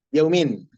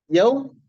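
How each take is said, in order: First: Yaumin completed with "-min"; akhiran kasratain. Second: Yaum left open, high, without an ending; tanpa akhiran. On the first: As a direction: close yaumin on a falling -in. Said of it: "ini adalah mudhaf li mudhafin ilaih". (yaumin dengan akhiran "in", nada turun) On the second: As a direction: raise yaum as an unfinished prompt. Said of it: "gimana bacanya?". (yaum bernada tinggi, tanpa harakat akhir) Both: Shown as a demonstration.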